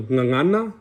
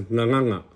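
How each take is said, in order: First: Said in the usual way. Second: Nganganga with ng replacing the final n; colloquial nga sound. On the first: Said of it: "So instead of". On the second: Shown as a demonstration. Teacher showing casual Samoan, ng sound throughout nganganga. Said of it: "to that nga sound".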